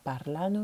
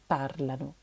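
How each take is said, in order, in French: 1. L'accent tombe sur la deuxième syllabe. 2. L'accent tombe sur la première syllabe. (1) "C'est pas parlano" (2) "L'accent va être décalé sur la première syllabe"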